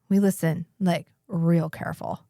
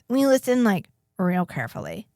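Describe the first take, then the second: First: It is said in the speaker's ordinary voice. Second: It is said in a put-on character voice. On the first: The speaker calls it wrong. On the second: The speaker calls it right.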